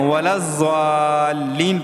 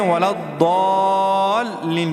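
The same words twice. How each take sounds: First: ولا الضالین with a jolt; jerked wrong way. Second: ولا الضالین with a proper heavy ض; correct ضاد. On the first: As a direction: chant ولا الضالین with a sudden jerk. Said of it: "ولا الضالین اس طرح جھٹکا دیتے ہیں". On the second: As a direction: recite ولا الضالین cleanly. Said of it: "ضاد کو صحیح پڑھتے ہیں". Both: Shown as a demonstration.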